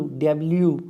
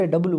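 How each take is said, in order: First: डब्ल्यू said with a y glide, dub-lyoo; correct W. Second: डब्लू said short, dub-loo; wrong W. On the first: Teacher modelling the right डब्ल्यू. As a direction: slide a y into डब्ल्यू. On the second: Teacher showing the wrong डब्लू to students. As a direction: clip डब्लू into two syllables. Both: Shown as a demonstration. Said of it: "not a डब्लू".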